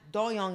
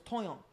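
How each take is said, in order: First: It begins with a hard D sound. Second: It begins with a softer, T-like sound. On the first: The speaker calls it wrong. "his name is not Doyoung" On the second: The speaker calls it right. "it's Toyoung"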